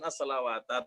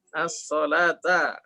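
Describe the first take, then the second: First: A clear w sound is said mid-word. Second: No w sound is said mid-word. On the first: The speaker calls it wrong. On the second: The speaker calls it right.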